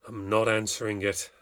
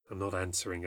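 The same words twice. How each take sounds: First: Firm refusal at speaking volume; said out aloud. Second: Low, soft talk to oneself; quietly resolve under the knocking, lower voice. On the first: Mother refusing to answer another knock, said out aloud. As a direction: say it aloud to the empty room. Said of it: "I said out aloud". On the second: Mother telling herself to ignore the door, quietly to herself. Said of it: "I said to myself". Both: A narrator's reading.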